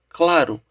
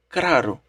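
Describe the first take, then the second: First: The second sound is an L. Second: The second sound is an R. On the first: "no lugar de claro" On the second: "mudança do le para o re chama-se rotacismo"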